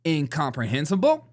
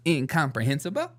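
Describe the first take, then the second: First: Mock-proud Incomprehensible with a rising lilt; animated big word. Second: Mock-proud Incomprehensible again with a rising lilt; animated big word. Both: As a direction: savor Incomprehensible like a new toy. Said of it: "animated about it".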